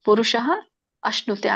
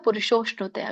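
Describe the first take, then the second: First: The two words are said separately. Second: The two words are merged into one. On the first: "ಪುರುಷ ಅಶ್ನುತೆ ಆಗುತ್ತೆ" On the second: "ಕೂಡಿದಾಗ ಪುರುಷೋಷ್ಣುತೆ ಆಗುತ್ತೆ"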